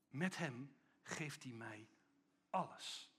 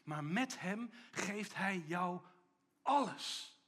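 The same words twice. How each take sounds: First: Soft, slow personal repetition; the same line turned inward, hushed; quiet confession. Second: Met hem slow, then alles ringing out; emphatic build. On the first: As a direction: say it softly like a private prayer. Repeated softly to oneself. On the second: Preacher's emphatic climax. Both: Real, not acted.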